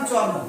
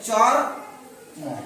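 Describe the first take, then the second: First: The word is said smoothly as one unit. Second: The word is split with a break between parts.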